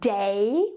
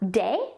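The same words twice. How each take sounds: First: The vowel glides between two sounds. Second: The vowel is one short, steady sound. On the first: "A diphthong is a glide between two vowel sounds" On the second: "They will use a short sounds"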